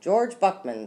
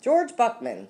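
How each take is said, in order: First: Higher-pitched, mildly worried father. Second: High, urgent raised voice; much louder. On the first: Father nervously introduces himself to Rita, mildly worried. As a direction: introduce yourself with a touch of worry. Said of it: "in a worried voice". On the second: Father tries to head off disaster, in a louder voice. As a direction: project the name higher, with more urgency. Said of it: "in a much louder voice". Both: A narrator's reading.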